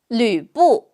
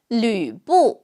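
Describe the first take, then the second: The two takes are said the same way.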